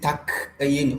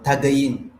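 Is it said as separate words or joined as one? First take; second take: separate; joined. First: Separate words with a gap and a k sound. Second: One joined word with a g sound. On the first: The speaker calls it wrong. "don't put a gap" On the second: The speaker calls it right. "like it's in one word"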